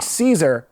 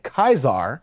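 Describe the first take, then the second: First: The name begins with a soft S sound. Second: The name begins with a hard K sound. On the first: The speaker is not sympathetic to the Legion. "they're not sympathetic" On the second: The speaker sympathizes with the Legion. "they know how to pronounce it"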